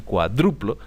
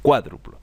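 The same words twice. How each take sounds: First: "cuadruplo" stressed on the second syllable, DRU; mistaken stress. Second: "cuádruplo" stressed on the first syllable, CUA; accent on the A of "cuádruplo"; correct stress. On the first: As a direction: say "cuadruplo" wrongly as cua-DRU-plo. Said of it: "yo suelo decir cuadruplo". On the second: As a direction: say "cuádruplo" properly as CUA-dru-plo. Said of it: "el acento está en la A". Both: Shown as a demonstration.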